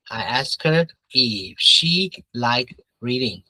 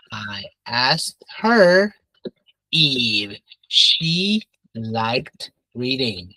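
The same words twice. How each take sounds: First: Said in the usual way. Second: Very slow, word by word with pauses; slow modelling. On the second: Shown as a demonstration. Teacher modelling a reported question for the class, slow and deliberate. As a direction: spell the sentence out slowly for learners.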